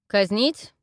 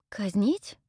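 First: Threatening question. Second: Surprised echo. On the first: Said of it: "И вот что мне теперь". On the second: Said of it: "переспросила я". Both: Acted.

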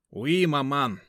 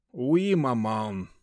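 First: Mock-French son's answer; French-tinged reply. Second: Slow, resigned sigh; weary, dragged-out answer; sighing reply. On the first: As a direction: faux French politeness. Сын отвечает матери по-французски. (галантный французский тон) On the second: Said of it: "со вздохом ответил". (со вздохом, устало) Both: A narrator's reading.

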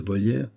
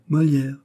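First: "Molière" turned into Volière, first sound V; mistaken name. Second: "Molière" with its initial M, higher in pitch; higher correcting "Molière", M not V; name correction. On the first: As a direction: slip a V in place of the M of "Molière". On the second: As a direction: cut in with "Molière" starting clearly on M. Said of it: "continua monsieur Molière". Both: Acted.

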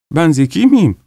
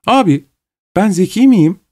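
First: Put-on a young girl's curious question, lightly raised; a hint of childlike curiosity; naive wonder. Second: Put-on higher, eager girlish question to her brother; eager repeat to brother. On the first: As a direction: ask it with innocent curiosity. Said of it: "öyle saf bir merakla sordu". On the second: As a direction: press him for an answer, innocently. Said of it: "diye Gagin'e sordu". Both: A narrator's reading.

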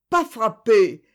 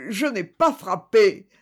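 First: "pas frappé" repeated even louder and higher; louder repetition. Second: "pas" stressed, slow and louder, falling at the end; insistent denial. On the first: Accused man repeats his denial, higher and much louder. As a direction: push "pas" harder in the repetition. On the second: Accused man insists he never struck, slow and louder. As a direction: drag out "Je n'ai pas frappé" with weight on "pas". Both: A narrator's reading. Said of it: "répétait infatigablement".

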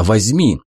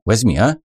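First: "возьми" settled with a falling tone; firm, loving, falling "возьми"; devoted firm insistence. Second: Gentle pleading with a rising "возьми, а?"; coaxing, rising on the final "а"; eager pleading offer. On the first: (твёрдо и нежно, с понижением) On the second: (умоляюще, с подъёмом на «а?») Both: A narrator's reading. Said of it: "такая готовность, такая любовь".

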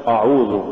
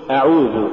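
First: أعوذ opening on a thick dark a; full-mouthed back a starting أعوذ; wrongly heavy hamza. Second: أعوذ opening on a thin a; light hamza. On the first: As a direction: thicken the first vowel of أعوذ. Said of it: "ولا تقل". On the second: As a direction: keep the first vowel of أعوذ light. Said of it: "قل". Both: Shown as a demonstration.

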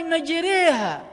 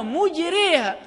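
First: مجريها with "ma" at the start and a leaning "ree-ha"; fatha and imala. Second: مجريها with "mu" at the start and a leaning "ray-ha"; damma and imala. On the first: Teacher showing students a Quranic reading, مجريها with fatha and imala. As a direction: say مجريها as "maj-RAY-ha". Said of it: "بفتح الميم والإمالة". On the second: Teacher contrasting the second reading, مجريها with damma and imala. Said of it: "وقرئت بضم الميم والإمالة". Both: Shown as a demonstration.

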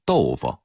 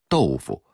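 First: Put-on 豆腐 the old Beijing way, second syllable reduced and neutral; Beijing local pronunciation. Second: 豆腐 in careful Putonghua, second syllable kept a clear fu; standard Mandarin pronunciation. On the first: Lecturer shows how Beijingers say it, 豆腐 with a slack last syllable. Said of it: "一定得说成豆腐". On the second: Lecturer shows listeners the standard reading, 豆腐 with a clear fu. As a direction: say 豆腐 the textbook Putonghua way. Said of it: "普通话应该念成豆腐". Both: Shown as a demonstration.

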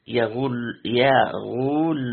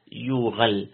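First: يغل drawn out as "yaghull", with u after the ghayn; damma on the ghayn. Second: يغل said as "yughal", opening on "yu"; damma on the ya. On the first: Teacher repeats the variant reading, يغل as a slow "yaghull". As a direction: say يغل slowly, "ya" then a long "ghull". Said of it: "وضم الغين". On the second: Teacher contrasts the other reading, يغل as "yughal". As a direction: say يغل with u after the ya and a after the ghayn. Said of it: "وقرئ بضم ال-، الياء". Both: Shown as a demonstration.

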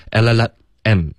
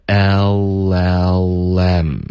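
First: "L L M" as el-la-la, then a separate em; quick la-la, then detach the em in "L L M"; broken mispronunciation. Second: "L L M" stretched as el-lel-lem without a break; slow linked demo. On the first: Teacher showing students what to avoid, "L L M" broken before em. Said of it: "所以不是L L M这样". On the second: Teacher modelling the correct linking, slow joined "L L M" as el-lel-lem. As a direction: link each letter of "L L M" very slowly. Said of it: "而是L L M". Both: Shown as a demonstration.

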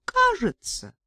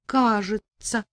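First: Coy admission. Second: Smiling through tears. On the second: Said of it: "улыбнулась я сквозь слёзы". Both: A narrator's reading.

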